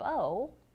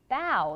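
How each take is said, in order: First: The vowel rhymes with go. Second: The vowel rhymes with cow. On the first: The speaker calls it wrong. "not bow like a bow that you would put in your hair" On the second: The speaker calls it right. "we pronounce it bow like bow. Like you can see the kitten here who is bowing"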